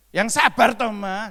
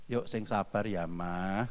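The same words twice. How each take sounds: First: Much higher and louder, scolding tone; raised tone. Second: Soft and low, talking a spouse down gently; calm the wife, voice kept down and soft; lowered gentle tone. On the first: Pastor showing the wrong way to tell a wife to be patient, higher and louder. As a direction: snap it at the wife, voice shooting up. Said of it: "Ini hanya contoh sedikit aja". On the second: Pastor showing how a husband soothes his wife, softer and lower. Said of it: "Ya, nadanya diturunkan". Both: Shown as a demonstration.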